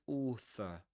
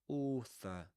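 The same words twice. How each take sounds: First: The word is said with a British accent. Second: The word is said with a British accent.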